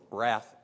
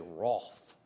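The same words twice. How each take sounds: First: It is said in a non-Australian, American way. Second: It is said in an Australian way.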